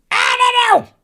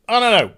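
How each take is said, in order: First: High, loud, exasperated I don't know; squeaky burst of exasperation; exasperated cry. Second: Said in the usual way. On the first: Real, not acted. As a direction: throw it up high in frustration. Exasperated outburst, then plain repeat.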